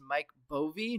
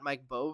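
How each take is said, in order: First: The surname has two syllables, ending in 'ee'. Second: The surname has one syllable, no final vowel. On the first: The speaker calls it right. "I think that we decided this was" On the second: The speaker calls it wrong. "not Mike Bove, as I've been calling him"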